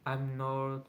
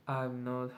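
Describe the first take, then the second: No difference in how they are said.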